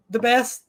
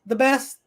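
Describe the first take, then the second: No difference in how they are said.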